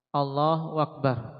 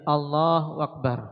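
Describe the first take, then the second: No difference in how they are said.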